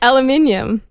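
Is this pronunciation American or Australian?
Australian. It has five syllables, ending in '-inium'.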